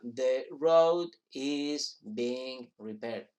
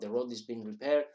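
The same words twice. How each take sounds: First: It is said slowly with each word separate. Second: It is said quickly with the words run together. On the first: The speaker calls it wrong. "como se habla deprisa, nadie habla the road is being repaired" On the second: The speaker calls it right.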